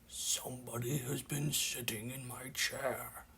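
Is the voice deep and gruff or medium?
deep gruff. It is said in a deep, gruff voice.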